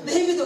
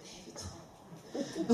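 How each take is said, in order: First: Louder, higher mimicking retort; mock husband loud. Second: Very slow, soft and breathy; drawn-out dismissal. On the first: Wife mocking her husband's catchphrase, loud and higher. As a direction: fling the phrase back mockingly. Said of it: "노이로제예요". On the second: Retold or imitated. Husband brushing off his wife's gossip, slow and soft. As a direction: stretch it out lazily as if yawning. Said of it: "그러면".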